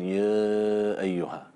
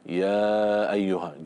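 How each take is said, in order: First: The sounds are held back, not let out. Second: The sounds are released freely and openly. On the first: The speaker calls it wrong. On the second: The speaker calls it right.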